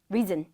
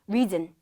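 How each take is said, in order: Both takes have the same delivery.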